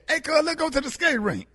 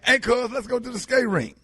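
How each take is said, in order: First: It is said with more energy. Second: It is said with ordinary, lower energy.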